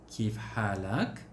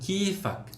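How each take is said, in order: First: Both words are said in full and separately. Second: The words are run together and shortened.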